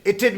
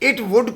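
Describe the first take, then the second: First: The two words merge into one short syllable. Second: Both words are said in full.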